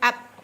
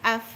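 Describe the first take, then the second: First: The final sound is made with both lips closed. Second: The final sound is made with teeth on lip. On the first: The speaker calls it wrong. "Ab bertemu dua bibir ke ba itu. Dia salah" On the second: The speaker calls it right. "bunyinya af. Hamas hadir"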